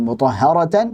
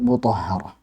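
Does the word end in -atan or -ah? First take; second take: -atan; -ah. First: The word ends with a final -atan sound. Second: The word ends with a final h sound. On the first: The reading continues past this word. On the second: The reading stops on this word.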